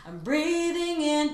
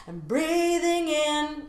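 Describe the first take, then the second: First: "breathing" sung with just a slight open "ee"; small jaw drop. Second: "breathing" sung slow and higher with a wide-open "eh"; over-exaggerated jaw drop. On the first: Coach shows the subtle jaw drop on "breathing". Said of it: "just a small jaw drop". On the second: Coach overdoes the jaw drop on "breathing". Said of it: "I'm over-exaggerating to make the point". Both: Shown as a demonstration.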